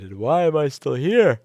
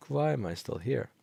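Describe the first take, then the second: First: Exasperated outburst. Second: Said in the usual way. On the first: Real, not acted. Exasperated tired shout.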